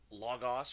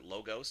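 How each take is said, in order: First: "Logos" with open "ah" vowels; first Greek pronunciation. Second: "Logos" with long "oh" vowels; alternative Greek pronunciation. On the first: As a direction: say "Logos" as LAH-gahs. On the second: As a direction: say "Logos" as LOH-gohs. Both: Shown as a demonstration. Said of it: "depending on your, uh, your Greek pronunciation".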